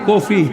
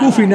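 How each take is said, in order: First: The first vowel sounds like 'o'. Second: The first vowel sounds like 'u'. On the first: The speaker calls it right. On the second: The speaker calls it wrong. "কুফি না"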